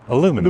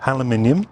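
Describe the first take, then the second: First: It is said with an American pronunciation. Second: It is said with a British pronunciation.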